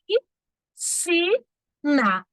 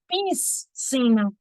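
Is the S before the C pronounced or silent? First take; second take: silent; pronounced. First: The S before the C is silent. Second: The S before the C is pronounced. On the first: The speaker calls it right. "Não tem esse S no som" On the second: The speaker calls it wrong. "Não é certo dizer piscina"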